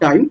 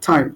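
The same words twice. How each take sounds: First: The t is plain, without a puff of air. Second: The t is pressed out with a puff of air. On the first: The speaker calls it wrong. "Not টাইম" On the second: The speaker calls it right. "আমরা বলবো টাইম"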